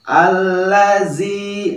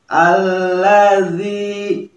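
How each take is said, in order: First: The middle consonant is a plain z sound. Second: The middle consonant is not a plain z. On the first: The speaker calls it wrong. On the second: The speaker calls it right.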